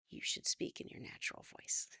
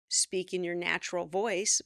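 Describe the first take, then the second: First: Mock whisper. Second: Said in the usual way. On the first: Shown as a demonstration. Coach jokes about natural voice.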